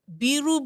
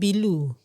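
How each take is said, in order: First: The middle consonant is an R sound. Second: The middle consonant is an L sound. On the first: The speaker calls it right. "biru become bilu" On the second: The speaker calls it wrong. "the pronunciation is not right"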